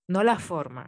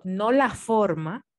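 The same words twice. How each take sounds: First: Said in the usual way. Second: "no la forma" slow and loud, each word weighted; stress on forma. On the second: Shown as a demonstration. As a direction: lean on "no la forma" to make the point. (recalca "no la forma" despacio y fuerte) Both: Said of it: "Hago el énfasis".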